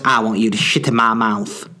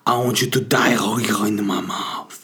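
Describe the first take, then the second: First: It is said in a plain normal voice. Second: It is said in a put-on sexy voice.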